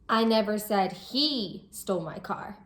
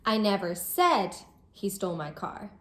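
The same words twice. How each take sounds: First: The word "he" carries the main stress. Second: The word "said" carries the main stress. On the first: Someone else stole the car. "I'm saying that it wasn't him who stole the car, but it was someone else" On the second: It was hinted or thought, not said. "I might be expressing that I didn't say he did this, but I might have hinted at it or thought it"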